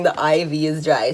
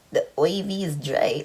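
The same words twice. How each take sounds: First: Said in the usual way. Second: Put-on puzzled echo of a Bajan accent, IV as "oy-vee". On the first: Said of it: "explained to me that she's saying". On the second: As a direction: repeat the Bajan pronunciation in confusion. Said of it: "say really well in a Bajan accent".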